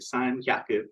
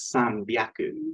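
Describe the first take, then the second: First: The second word begins with an h sound. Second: The second word begins with a b sound. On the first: The speaker calls it wrong. "you would think is san hyaku" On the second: The speaker calls it right. "It's san byaku"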